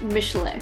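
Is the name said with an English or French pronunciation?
French. The name is said the original French way.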